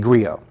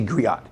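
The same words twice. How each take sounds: First: The final t sound is left silent. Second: The final t sound is pronounced. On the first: This is how it is said in English. "When they switch to English, they say griot" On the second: This is how it is said in African languages. "when they're speaking in their language, they say griot"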